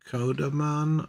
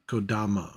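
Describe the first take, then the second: First: The word ends with an n sound. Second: The word ends with a vowel sound. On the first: The speaker calls it wrong. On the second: The speaker calls it right.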